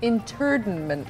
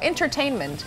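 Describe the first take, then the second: First: The word is said as interdinment. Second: The word is said as entertainment.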